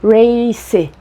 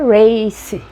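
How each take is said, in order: The two takes are said the same way.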